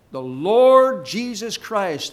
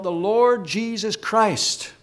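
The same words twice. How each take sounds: First: "Lord" drawn out slowly and stressed. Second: Said in the usual way. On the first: Real, not acted. Preacher underlines "Lord" for the congregation, stressed and drawn out. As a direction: lean long and hard on the word "Lord". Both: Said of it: "I want to emphasize that word".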